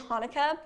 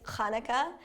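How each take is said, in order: First: The word begins with a plain h sound. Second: The word begins with a throaty ch sound. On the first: This is how it is said in the US. "in the U S we say Hanukkah" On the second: This is the more traditional way to say it. "more traditionally it's Hanukkah. with a little like ch at the beginning"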